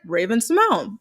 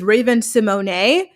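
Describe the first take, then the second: First: The final e of Simone is silent. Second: The final e of Simone is sounded. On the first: This is how the name's owner says it. The speaker calls it right. "She pronounces it Raven Simone" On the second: This is how the spelling suggests it is said. The speaker calls it wrong. "you would think her name is [name]"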